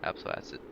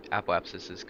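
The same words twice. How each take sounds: First: "Apoapsis" slurred as "apso-asa"; garbled word. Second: "Apoapsis" redone cleanly, all sounds said; clear correction. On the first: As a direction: mumble "Apoapsis" into "apsoasa". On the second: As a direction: say "Apoapsis" carefully, "ap-o-ap-sis". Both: Real, not acted. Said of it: "that was really bad speech".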